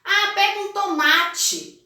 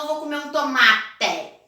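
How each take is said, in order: First: Tomate with the ending said tchee, toh-mah-tchee; natural tomate. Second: Tomate with a clear final e, toh-mah-teh; spelled-out tomate. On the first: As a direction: tomate falado tchi no final. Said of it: "O som é de I, tomate". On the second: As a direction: say tomate ending in a crisp te. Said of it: "Ninguém fala". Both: Shown as a demonstration.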